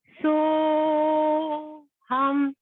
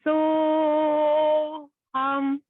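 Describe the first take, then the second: No difference in how they are said.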